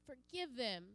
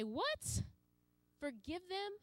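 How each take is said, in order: First: Tender plea. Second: Higher, rising disbelief on "Forgive them?"; incredulous. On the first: Acted. Jesus prays forgiveness from cross. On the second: Pretend. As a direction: sound shocked at the idea. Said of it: "And sometimes I say".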